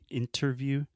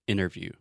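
First: The T after the N is clearly pronounced. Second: The T after the N is dropped, American style.

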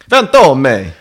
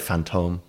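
First: It is said in an exaggerated Belgian accent. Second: It is said plainly in the speaker's own accent. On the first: "I'm going to adopt a potentially offensive Belgian accent" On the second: "I'd say Fantôme"

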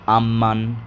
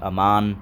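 First: The M sound is held long and emphasized. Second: The M sound is short and plain.

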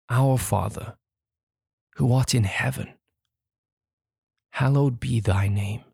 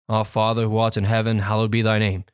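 First: It is read slowly and distinctly. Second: It is read quickly, rushed together.

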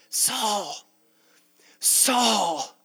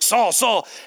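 First: It is said in a tender, fatherly tone. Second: It is said in a strict, stern tone.

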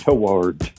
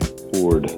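First: The word is stretched to nearly three syllables. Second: The word is said as one syllable, like 'tord'. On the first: The speaker calls it wrong. "You almost turned it into toward" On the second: The speaker calls it right.

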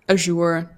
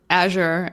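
First: It is said the British way. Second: It is said the American way.

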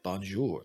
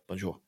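First: The end of the word is drawn out fully. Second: The end of the word is cut off short. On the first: The speaker calls it wrong. "they don't say things like bonjour" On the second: The speaker calls it right. "it's very like bonjour. Like they cut off the ends of their phrases"

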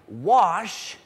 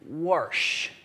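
First: The word is said without an R sound. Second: The word is said with an added R sound. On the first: "instead of saying something like, wash" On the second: "if you're from Iowa, you would say something that sounds more like, warsh. Stick an R in there"

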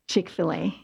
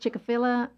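First: The name has its usual spoken pronunciation. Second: The name is sounded out as it is spelled. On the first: The speaker calls it right. "hear someone say Chick-fil-A" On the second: The speaker calls it wrong. "I read it Chick-fil-A"

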